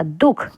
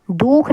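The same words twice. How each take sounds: First: दुख with a brief u; short vowel. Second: दुख drawn out as "dookh"; long vowel. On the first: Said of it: "थोड़ी आवाज़ दे रहा था". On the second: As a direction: stretch the u in दुख. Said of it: "दुख नहीं". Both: Shown as a demonstration.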